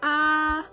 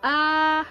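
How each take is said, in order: First: The pitch stays high and level. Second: The same.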